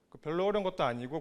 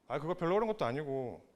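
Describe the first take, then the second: First: It is said in a plain, neutral tone. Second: It is said in a mocking, sarcastic tone.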